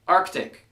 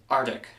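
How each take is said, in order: First: Arctic with the C sounded clearly, ARK-tik; careful pronunciation. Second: Arctic said as AR-tik, dropping the C; wrong pronunciation demo. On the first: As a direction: say Arctic with a crisp k before the t. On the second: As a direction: Arctic without the k sound. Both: Shown as a demonstration. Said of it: "It's not pronounced Arctic".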